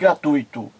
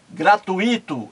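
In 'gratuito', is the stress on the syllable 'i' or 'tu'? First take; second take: tu; i. First: The stress falls on the 'tu' syllable. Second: The stress falls on the 'i' syllable. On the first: The speaker calls it right. "em vez de" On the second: The speaker calls it wrong. "ouviu a jornalista errar"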